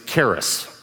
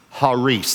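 First: The word begins with a hard K sound. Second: The word begins with a soft H sound. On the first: This is the English way of saying the word. The speaker calls it wrong. "Our English pronunciation of it is charis" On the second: This is the original Greek way of saying the word. The speaker calls it right. "The C in Greek is silent. And so this word is actually pronounced haris"

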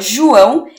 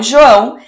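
First: The O sounds like U. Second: The O sounds like O. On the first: "que fica João" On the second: "como João"

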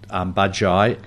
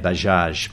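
First: The word ends with an 'ee' sound. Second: The word ends with a 'j' sound. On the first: This is how it is said in Indonesia. "In Indonesia, they call it Bajai" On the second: This is how it is said in India. "in India, they say Bajaj"

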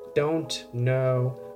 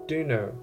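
First: The two words are said fully and separately. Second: The words blend into one short word.

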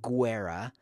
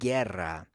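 First: The U after the G is pronounced. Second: The U after the G is silent. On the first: The speaker calls it wrong. "It's not guerra" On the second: The speaker calls it right. "It's a silent U. It's not pronounced at all"

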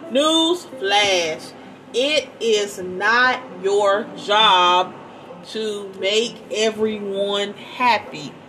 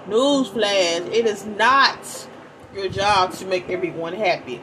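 First: It is read more slowly. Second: It is read at a normal pace.

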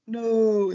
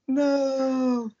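First: A plain, simple 'No' in Wiz's style. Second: A more exaggerated, ridiculous 'No'.

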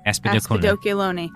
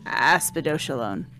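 First: The word does not end with 'lone'. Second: The word ends with the syllable 'lone'. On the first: The speaker calls it right. "Thought it was Lone" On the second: The speaker calls it wrong. "I know that's not it"

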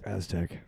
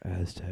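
First: It is said in a normal voice. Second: It is said in a sultry, sexy voice.

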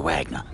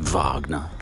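First: The name is said with an English-style pronunciation. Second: The name is said with a German-style pronunciation. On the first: "I say Wagner" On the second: "I don't say Wagner"

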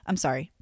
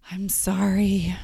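First: It sounds flat and insincere. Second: It sounds warm and sincere.

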